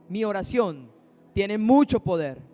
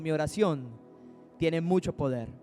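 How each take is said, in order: First: It is said with strong faith and conviction. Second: It is said plainly, without special conviction.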